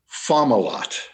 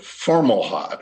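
First: No R sound follows the first vowel. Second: An R sound follows the first vowel. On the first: This is the speaker's own preferred form. The speaker calls it right. "the pronunciation that I use is Fomalot" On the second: This is how many other people say it. The speaker calls it wrong. "insert an R into this star's name"

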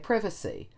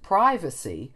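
First: The first vowel is short. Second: The first vowel is long. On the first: "while the Brits say privacy" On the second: "So we kept privacy"

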